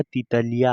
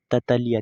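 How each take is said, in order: First: तितलिया with 'i' in the first syllable; correct pronunciation. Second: ततलिया with 'a' in the first syllable; misread pronunciation. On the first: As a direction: say तितलिया, 'ti-ta-li-ya', as the corrected reading. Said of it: "ये क्या हुआ?". (तितलिया, पहले अक्षर में छोटी इ के साथ) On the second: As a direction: say ततलिया, 'ta-ta-li-ya', as the mistaken reading. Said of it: "ततलिया नहीं". (ततलिया, गलत उच्चारण में पहला अक्षर 'त') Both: Shown as a demonstration.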